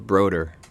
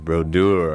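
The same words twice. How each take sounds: First: The name is said with an anglicized pronunciation. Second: The name is said with a French pronunciation. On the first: This is how the family says it. "My family says it Brodeur" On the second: This is how other people say it. "French it up"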